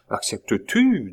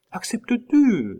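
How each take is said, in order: First: A lightly voiced Désiré, mildly pressing; Désiré asking. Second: A far higher, eager Claude echoing "Acceptes-tu?"; Claude asking. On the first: Désiré presses Pitou to accept, lightly voiced. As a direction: ask it plainly, just nudging. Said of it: "demanda Désiré". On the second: Claude echoes the question to Pitou, much higher and eager. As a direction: echo the question up high, eager. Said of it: "demanda Claude". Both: A narrator's reading.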